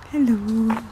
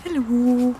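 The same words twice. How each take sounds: The two takes are said the same way.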